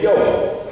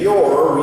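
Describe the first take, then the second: First: "yo" with no r at the end, drawn out; dropped R. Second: Said in the usual way. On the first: Shown as a demonstration. Showing the class how "your" lost its r, drawn-out "yo". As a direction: say "yo" and let the r vanish. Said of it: "instead of saying your, we said". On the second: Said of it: "E R A R rolling R".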